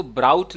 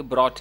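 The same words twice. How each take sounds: First: ब्राउट with an "ow" diphthong, rhyming with "out"; mispronounced brought. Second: ब्रॉट with one open "aw" vowel, as "brawt"; correct brought. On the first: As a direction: say ब्राउट wrongly, as "browt". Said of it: "इसको ब्राउट नहीं बोलेंगे". (ब्राउट में "आउ" की आवाज़, गलत उच्चारण) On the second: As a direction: say ब्रॉट with a single rounded vowel and no "ow" glide. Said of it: "ब्रॉट है ये". (ब्रॉट में "ऑ" की आवाज़, सही उच्चारण) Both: Shown as a demonstration.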